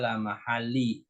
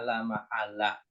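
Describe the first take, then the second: First: The word ends with a short 'i' vowel. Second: The word ends with a short 'a' vowel. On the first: The speaker calls it wrong. "Jangan dibaca la mahali" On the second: The speaker calls it right. "di sini bacanya la mahalla"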